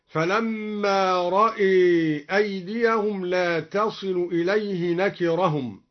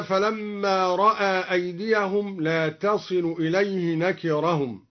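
First: رأى with the hamza vowel leaning toward e, "ra'e"; slow, bend رأى toward imala; Duri reading. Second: Said in the usual way. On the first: Shown as a demonstration. (رأى بإمالة الهمزة) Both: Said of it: "بإمالة الهمزة".

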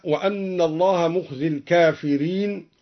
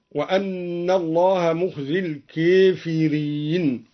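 First: Said in the usual way. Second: الكافرين with the long a leaned toward e, slow; imala on al-kafirin. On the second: Shown as a demonstration. (الكافرين بالإمالة، الألف مائلة نحو الياء) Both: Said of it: "قرأ الدوري بإمالة الكافرين".

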